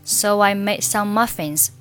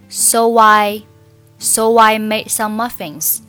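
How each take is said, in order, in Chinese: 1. 'so'和'I'之间有一个轻微的w滑音相连。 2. 'so'和'I'之间有一个重而刻意的w音相连。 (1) "一定是模糊的、轻的" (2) "错误示范"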